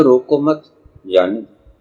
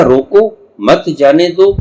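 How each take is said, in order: First: रोको मत run together, then a break before जाने दो; pause after मत. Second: रोको, then a break, मत जाने दो run together; firm, raised रोको set apart from मत जाने दो; pause after रोको. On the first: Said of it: "आप कहते हो". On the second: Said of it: "बस यही फर्क पड़ गया". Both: Shown as a demonstration.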